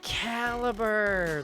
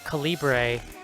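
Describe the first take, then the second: First: It is said like the ordinary word caliber. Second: It is said like the font name Calibri. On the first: The title is the ordinary word. The speaker calls it right. "the end credit came up, and I went Caliber" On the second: The title was taken to be a font name. The speaker calls it wrong. "I thought the name of this movie was Calibre"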